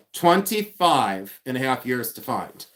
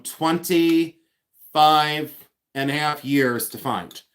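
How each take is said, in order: First: Said in the usual way. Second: Very slow on "twenty-five", stretching each word; drawn-out emphasis. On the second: Shown as a demonstration. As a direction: drag out the number to make it sink in. Stressing how long it took.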